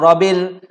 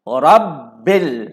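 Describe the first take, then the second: First: The b sound is short and single. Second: The b sound is held and doubled. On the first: The speaker calls it wrong. "Jangan baca Rabbil" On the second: The speaker calls it right. "Kena baca Rabbil"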